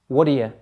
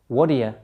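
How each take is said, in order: The two takes are said the same way.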